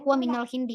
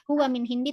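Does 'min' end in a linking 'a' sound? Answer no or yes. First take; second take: yes; no. First: The word min links with an added 'a' sound. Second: The word min ends closed, with no added vowel. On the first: The speaker calls it right. "tapi huwa minal hindi" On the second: The speaker calls it wrong. "Kita tidak mengatakan huwa min hindi"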